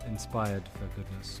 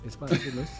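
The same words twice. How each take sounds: First: It is said at normal speed, word by word. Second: It is said quickly, run together as one word.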